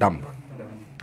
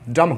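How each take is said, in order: First: The word ends with an audible b sound. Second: The word ends on the m sound, without b. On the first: This is how the word was said in the past. "Actually ये डम्ब पढ़ा जाता था" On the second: This is how the word is said today. "इस बी को silent कर दिया गया, डम हो गया"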